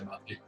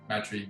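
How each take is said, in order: First: The name is said with a European pronunciation. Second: The name is said with an Australian pronunciation. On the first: The speaker is talking with European relatives. "if I'm with mum's side, I'll say Matri" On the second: The speaker is talking with Australian relatives. "if I'm with the Australian side of my family, I'm going to say Matri"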